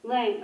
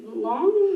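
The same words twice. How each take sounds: First: Lang with a short a, læŋ like "lang"; corrected name. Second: Long with an aw vowel, lɔŋ; Long said as "lawng" before the correction; misread name. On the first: Host repeats the reader's correction of her name. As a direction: Lang said to rhyme with "bang". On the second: Host reads the name off the sign-up sheet, guessing. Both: Real, not acted.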